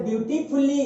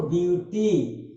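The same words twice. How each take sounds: First: Said in the usual way. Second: Broken into syllables. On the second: Shown as a demonstration. Teacher breaking a word up for students, beautifully in syllables. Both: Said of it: "अब अगर इसको तोड़िएगा".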